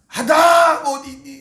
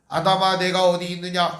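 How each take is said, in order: First: It is read with strong emotion, like calling out. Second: It is read flatly, without any emotion.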